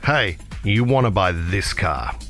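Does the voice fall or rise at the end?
fall. The pitch falls at the end of the sentence. It sounds more convincing as a sales pitch. The speaker calls it right. "Americans go down"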